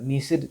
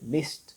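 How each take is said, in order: First: The ending is a d sound. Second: The ending is a t sound. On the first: The speaker calls it wrong. "ሚስድ ከማለት" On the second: The speaker calls it right. "missed ማለት it's simple yes ትክክለኛውም እሱ ነው"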